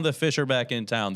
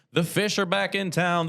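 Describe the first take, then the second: First: Said in the usual way. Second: High, punchy announcer hype; excited hype. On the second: Real, not acted. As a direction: sell it like a big event. Hyping a big home game.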